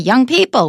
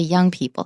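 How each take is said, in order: First: The stress falls on the word people. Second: The stress falls on the word young. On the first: The speaker calls it wrong. "We don't say" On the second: The speaker calls it right. "we say"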